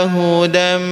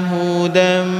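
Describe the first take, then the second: Both takes have the same delivery.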